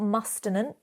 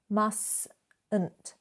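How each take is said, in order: First: The first T sound is pronounced. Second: The first T sound is silent. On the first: The speaker calls it wrong. "not mustn't" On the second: The speaker calls it right. "we're pronouncing the second T, but not that first one"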